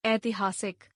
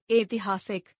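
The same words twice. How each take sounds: First: Said in the usual way. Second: ऐतिहासिक with "e" for "ai"; mispronounced. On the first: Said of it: "शुद्ध". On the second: Shown as a demonstration. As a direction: open ऐतिहासिक as "etihaasik". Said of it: "अशुद्ध".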